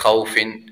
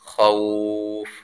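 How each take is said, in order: First: The word ends with a vowel plus n. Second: The word ends on a bare f sound. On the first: The reading continues without stopping. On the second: The reader stops on this word.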